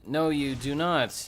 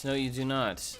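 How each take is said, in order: First: Slow, loud and high "No, you do not"; slow emphatic. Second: Said in the usual way. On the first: Real, not acted. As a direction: punch each word of "No, you do not". Slow loud first take.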